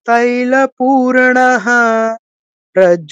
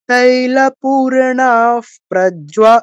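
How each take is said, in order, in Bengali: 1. দুটি শব্দ আলাদাভাবে, মাঝে বিরতি দিয়ে বলা হয়। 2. দুটি শব্দ বিরতি ছাড়া একসাথে বলা হয়। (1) "আমরা আলাদা উচ্চারণ করতে পারবো" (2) "একসাথে পড়তে হলে"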